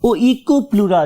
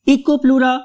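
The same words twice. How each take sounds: First: Oikoplura starting on OH-EE, o-ee-koo-PLOO-ra; second pronunciation variant. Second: Eikoplura starting on EE, EE-koo-PLOO-ra; first pronunciation variant. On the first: Teacher offers students either form, slow O-start oikoplura. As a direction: say oikoplura slowly with an opening O glide. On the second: Teacher offers students either form, slow EE-start Eikoplura. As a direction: say Eikoplura slowly with an opening EE sound. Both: Shown as a demonstration. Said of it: "oikoplura भी कहते हैं".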